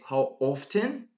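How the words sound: The T in often is clearly pronounced. "that's British. British people actually pronounce the letter T here"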